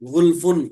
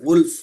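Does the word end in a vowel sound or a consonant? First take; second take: vowel; consonant. First: The word ends with a vowel and an n. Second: The word ends abruptly on its final consonant. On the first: The reading continues without stopping. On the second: The reading stops at this word.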